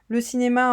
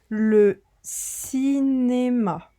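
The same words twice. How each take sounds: First: It is read very quickly. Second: It is read at a moderate, even pace. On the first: "lire très vite" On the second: "j'ai lu, on va dire, euh, à allure moyenne"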